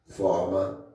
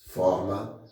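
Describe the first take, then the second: No difference in how they are said.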